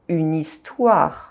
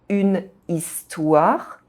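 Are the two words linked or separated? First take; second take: linked; separated. First: The final consonant joins the next vowel's syllable. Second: The final consonant stays apart from the next vowel. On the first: The speaker calls it right. "we say une histoire" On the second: The speaker calls it wrong. "We don't say une histoire"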